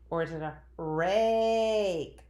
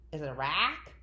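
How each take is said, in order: First: RAKE with the A stretched way out; long A option. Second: RACK with a short "ah" vowel, rising as a question; short A option. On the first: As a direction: slowly offer rake, holding the long A. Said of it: "stretching out nice and long and strong". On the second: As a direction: ask it with a brief short A in rack. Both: Shown as a demonstration.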